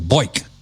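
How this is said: It is said with an upstate New York accent.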